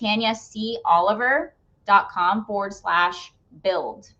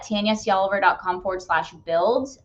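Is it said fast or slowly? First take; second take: slowly; fast. First: It is said at a slower pace. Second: It is said at a quick pace.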